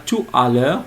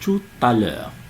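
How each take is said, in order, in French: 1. « Tout » n'est pas lié à « à ». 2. « Tout » est lié à « à » avec un son [t]. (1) "On ne dit pas" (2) "on dit"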